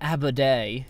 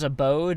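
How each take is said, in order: First: It is said with a mock French accent. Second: It is said with a plain English accent.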